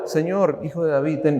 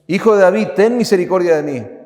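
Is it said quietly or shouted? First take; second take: quietly; shouted. First: It is said in a calm, quiet voice. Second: It is shouted loudly and urgently.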